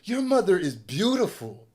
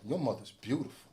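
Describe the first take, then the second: First: It sounds like a sincere, friendly compliment. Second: It sounds like a taunting, menacing jab.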